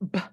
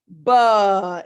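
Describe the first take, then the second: First: The b sound stops short with no vowel. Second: The b sound is followed by an uh vowel. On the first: The speaker calls it right. "I want to make sure it stops" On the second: The speaker calls it wrong. "You don't want to hear the schwa is ba"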